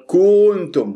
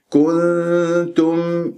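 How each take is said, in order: First: كنتم drawled as koontum with a swooping u; overstretched u. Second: Slow, level كنتم with short u and long n hum; correct clear meem. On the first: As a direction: mimic the mistake, pulling the u of كنتم long. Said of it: "البعض يمطها كأنه صارت". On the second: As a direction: recite كنتم correctly, holding the n, closing on a clear m. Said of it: "بهذه الطريقة والميم مظهرة". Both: Shown as a demonstration.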